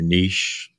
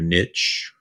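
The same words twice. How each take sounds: First: Niche is said with a British pronunciation. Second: Niche is said with an American pronunciation.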